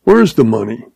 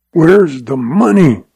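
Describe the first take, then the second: First: A mild understated sneer. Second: Slow, mildly rasped demand. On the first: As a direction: toss it off with a touch of scorn. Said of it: "he sneered". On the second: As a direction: grate it out slowly, a light rasp. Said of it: "rasped Lem Craig". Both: A narrator's reading.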